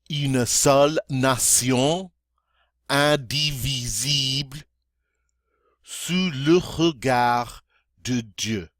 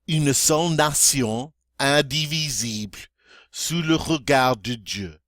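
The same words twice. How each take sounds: First: It is spoken very slowly. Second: It is spoken at near-normal speed. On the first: "this time very slowly" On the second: "more toward um, normal speed"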